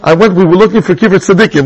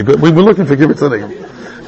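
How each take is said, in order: First: Said in the usual way. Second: Lower, chuckling as he says it; laughing. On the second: Real, not acted. Rabbi recalling the Pesach trip to his class, laughing. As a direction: laugh through the repeated phrase.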